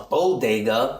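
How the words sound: It is said with an English accent. "we call it a bodega because we make it sound English"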